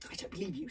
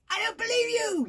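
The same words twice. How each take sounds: First: Said in the usual way. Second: High, loud "believe" yelled; yelling. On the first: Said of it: "said the little girl". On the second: A narrator's reading. Little girl yelling her disbelief at Hiccup. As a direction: yell "I don't believe you!" high. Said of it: "yelled the little girl".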